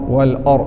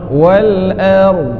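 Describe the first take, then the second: First: The vowel is heavy and rounded, like 'or'. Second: The vowel is thin and open, like 'ar'. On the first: The speaker calls it wrong. "Ada bunyi or wal or" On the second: The speaker calls it right. "pergerakan dibuka ar ar wal ar"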